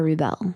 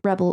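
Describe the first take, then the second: First: It is said as the verb form. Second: It is said as the noun form. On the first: To go against the norm. "or the verb" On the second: Someone who goes against the norm. "you can either have the noun"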